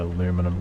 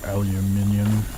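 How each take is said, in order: First: It is said with four syllables, ending in -num. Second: It is said with five syllables, ending in -nium.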